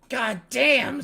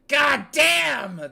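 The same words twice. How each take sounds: First: It is shouted less loudly. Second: It is shouted more loudly.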